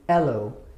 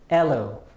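First: The word starts directly with a vowel. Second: The same.

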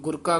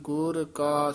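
First: The two words are run together as one. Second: The two words are kept clearly separate. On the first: The speaker calls it wrong. "ਆਮ ਗੁਰਕਾ ਕਹਿ ਜਾਂਦੇ ਨੇ" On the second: The speaker calls it right. "ਇਸੇ ਤਰ੍ਹਾਂ ਉਚਾਰਨ ਕਰਨਾ ਹੈ"

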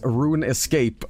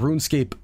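First: Said with an added e sound before scape. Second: Said as two parts, rune and scape. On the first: The speaker calls it wrong. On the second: The speaker calls it right.

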